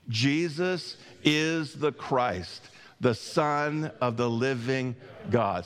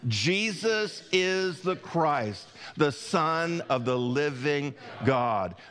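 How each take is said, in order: First: It is said in a plain, calm way. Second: It is said with strong passion and energy.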